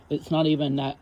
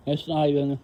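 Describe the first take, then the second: First: Said in the usual way. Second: "It's not even" slurred around gum in mouth; "It's not even" mumbled, words blurred by gum; chewing gum. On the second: Real, not acted. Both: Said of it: "my gum, sorry".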